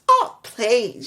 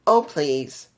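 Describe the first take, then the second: First: It sounds uppity, in-your-face and annoying. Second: It sounds flat and bland, with little energy. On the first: The speaker calls it right. "just uppity and just up in your face" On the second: The speaker calls it wrong. "her delivery of it. And pretty much it just felt flat"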